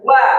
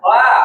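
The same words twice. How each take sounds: First: The lips are pushed out and rounded for w. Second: The lips stay unrounded for the w sound. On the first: The speaker calls it right. "tapi dilingkarkan" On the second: The speaker calls it wrong. "Kalau belum melingkar, maka wa-nya belum sempurna"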